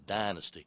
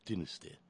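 First: The word is said in a plain, everyday accent. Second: The word is said in a mouth-closed, upper-crust British accent. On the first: "It's not a dynasty" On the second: "That sort of mouth-closed, sort of upper-crust British accent"

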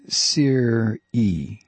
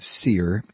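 First: The word is said with two syllables. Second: The word is said with one syllable. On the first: The speaker calls it right. "apparently we've been pronouncing S-E-R-E wrong. It's Sear-E" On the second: The speaker calls it wrong. "I've been pronouncing it Sear"

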